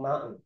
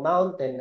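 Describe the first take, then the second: First: A syllable is swallowed in fast speech. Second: Every syllable is clearly pronounced.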